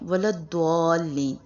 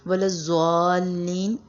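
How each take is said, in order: First: The letter is pronounced like a D sound. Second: The letter is pronounced like a Z sound. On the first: "बहुत से लोग इसको द्वाद पढ़ते हैं" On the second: "हम या तो इसको ज़्वाद पढ़ते हैं"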